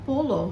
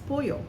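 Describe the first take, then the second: First: The middle consonant is an L sound. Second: The middle consonant is a Y sound. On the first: The speaker calls it wrong. "it's not polo" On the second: The speaker calls it right. "double L is a Y sound"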